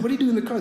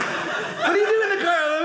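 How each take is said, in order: First: Slightly high, puzzled question; concerned question. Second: Much higher mock questioning voice; exaggerated questioning. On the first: Retold or imitated. Generous friend to man found sleeping in car, concerned question. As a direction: ask it as a puzzled, kindly friend. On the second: Friend finding comic asleep in his car, exaggerated questioning. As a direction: pitch it way up, hammed-up disbelief. Replaying the scene at his expense.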